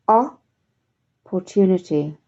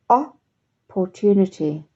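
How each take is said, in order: No difference in how they are said.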